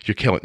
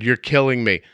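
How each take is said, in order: First: Said in the usual way. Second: Raised, higher pleading yell; yelling at the dogs. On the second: Retold or imitated. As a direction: yell out into the cold backyard. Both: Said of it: "now I'm yelling in my backyard".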